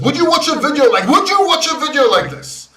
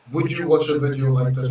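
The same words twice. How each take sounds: First: Higher and louder, pumped, laughing through it; emotional hyped delivery. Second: Unemotional boring delivery. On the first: Host demoing the emotional version for viewers, hyped and loud. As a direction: punch "you" in "would you watch a video like this?" with big energy. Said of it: "You want some emotional guy?". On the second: Host demoing the boring version for his viewers, dull and low. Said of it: "Some unemotional, boring guy on YouTube?". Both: Shown as a demonstration.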